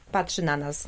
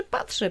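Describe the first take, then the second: First: Said in the usual way. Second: "patrzy" jumped way up high and teasing; a high teasing "patrzy" for the studio guest; playful squeak. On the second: Pretend.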